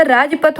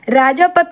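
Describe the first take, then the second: First: Said in the usual way. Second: राजापत with long -jaa in the middle; wrong form. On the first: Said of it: "राजपथ होता". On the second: Shown as a demonstration. Teacher rejects a misspelling, राजापत with long middle aa. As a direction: hold aa after j in राजापत. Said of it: "राजापत नहीं होता".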